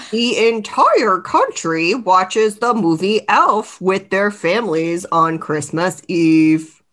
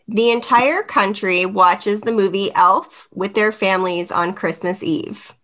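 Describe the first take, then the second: First: Said in the usual way. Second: Flat robot voice reading; monotone robot voice read. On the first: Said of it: "You need me to read it again?". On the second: Real, not acted. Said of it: "You turn into a robot".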